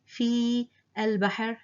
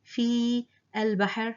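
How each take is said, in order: First: The long vowel and following letter are sounded. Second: The long vowel and following letter are sounded.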